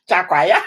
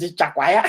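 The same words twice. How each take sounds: First: Chakwaya repeated slowly with a rising end; native pronunciation. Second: Chakwaya said the native way, low, stress on the first syllable; native pronunciation. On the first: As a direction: say Chakwaya carefully, ending up. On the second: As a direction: say Chakwaya as in her own language. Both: Shown as a demonstration. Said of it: "If I said it in our language".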